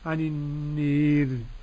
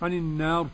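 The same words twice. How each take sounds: First: The long a is strongly raised toward e. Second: The long a is fully open. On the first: "بالإمالة" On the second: "بالفتح كده"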